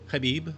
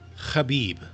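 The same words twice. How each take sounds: First: It starts with a light throat rasp. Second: It starts with a strong, harsh throat rasp. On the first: The speaker calls it right. "Habib is probably closer" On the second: The speaker calls it wrong. "pronounced with that fricative in the background. ... that's probably overdoing it"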